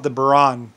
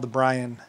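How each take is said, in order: First: The name sounds like 'boo-RAN' with two syllables. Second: The name sounds like the English name 'Brian'. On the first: The speaker calls it wrong. "they call it the Buran, but they're mispronouncing it" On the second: The speaker calls it right. "It's called the Brian"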